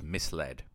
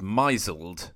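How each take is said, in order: First: It is said as 'mis-led', with two clear parts. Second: It is said as 'my-zled', one stem plus d. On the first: It is read as the past tense of mislead. The speaker calls it right. "It wasn't. It was misled" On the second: It is read as the past tense of an imagined verb. The speaker calls it wrong. "I assumed it was misled from the verb to misle"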